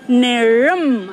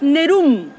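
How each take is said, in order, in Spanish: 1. La segunda sílaba se pronuncia claramente. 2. La segunda sílaba se omite o se traga. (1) "es Nerum. Ahí nos perdimos la segunda sílaba" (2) "no es Nerum"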